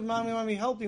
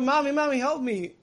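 First: Said in the usual way. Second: Put-on high, loud frightened child's cry; child screaming for help. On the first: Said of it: "Instead of". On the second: Child at the doctor screaming to his mother, loud and high. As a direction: cry out to Mommy like a terrified kid. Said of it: "the kid's screaming out".

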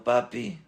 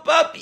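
First: Soft, dropped-away echo of a shout; hushed imitation of calling out; muted retold cry. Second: Put-on very high scream of a child; high-pitched dramatized yell; acted scream. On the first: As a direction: say the cry quietly, just reporting it. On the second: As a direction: cry out for daddy at full pitch. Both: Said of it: "Y él gritando".

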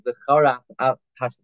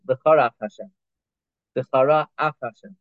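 First: V'chara Af Hash- blurred into one word; wrong run-together. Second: V'chara Af Hashem with a short break between the words; clear separation. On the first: Retold or imitated. Teacher showing the wrong reading, run together. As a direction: slur the words together as the mistake. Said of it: "You don't want it to sound like". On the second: Shown as a demonstration. Teacher showing words kept apart. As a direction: keep each word apart. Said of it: "Tzarich Litin Rach Bein".

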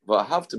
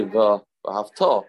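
First: "Well, have to" with the weight on "have"; stress on have. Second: "Well, have to" slowed, weight on the final "to"; slow careful "Well, have to" with the final "to" stressed; stress on the last syllable. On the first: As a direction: lean on "have" for the past-tense meaning. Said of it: "means you loved". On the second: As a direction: draw it out and land on "to" so it means you should love. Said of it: "you should love". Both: Shown as a demonstration.

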